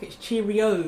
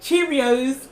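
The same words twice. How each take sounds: First: "Cheerio" with no S at the end. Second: "Cheerios" with a final S sound. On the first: Shown as a demonstration. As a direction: say "Cheerio" ending on the O. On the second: Retold or imitated. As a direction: say "Cheerios" ending in a clear S. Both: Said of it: "there's no S at the end".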